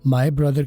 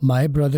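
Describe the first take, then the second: First: 'My' has a full 'eye' glide. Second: The same.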